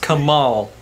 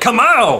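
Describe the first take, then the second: First: The name is said at a normal, calm volume. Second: The name is shouted loudly.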